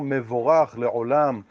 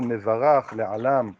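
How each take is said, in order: First: The qamatz vowels are sounded like 'o'. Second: The qamatz vowels are sounded like 'a'. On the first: "המבטא אשכנזי ותימני שאומרים קמץ או, אז במנהג ההוא צריך לומר" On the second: "במבטא הספרדי צריך להיות קמץ גדול"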